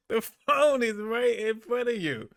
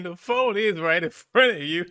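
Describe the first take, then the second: First: Higher, amused rebuke; teasing repeat. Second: Laughing scold about his volume; raised voice. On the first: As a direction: tease him for shouting. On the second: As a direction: call him out over the noise. Tells host he's too loud. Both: Real, not acted.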